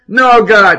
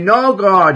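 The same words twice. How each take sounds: First: It sounds like a desperate, sincere plea. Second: It sounds like a sneering, mocking imitation.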